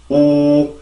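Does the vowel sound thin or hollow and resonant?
resonant. The sound is hollow, with rich mouth resonance. The speaker calls it right. "입안에 빈 공간이 있으면 우, 우 이렇게 하면서 좀 더 공기가 많이 울리게 되죠"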